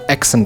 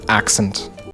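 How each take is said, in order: First: The first vowel sounds like 'eh'. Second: The first vowel sounds like 'ah'. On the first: The speaker calls it wrong. "mixing up eh and ah ... like pronouncing this word accent" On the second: The speaker calls it right. "instead of accent"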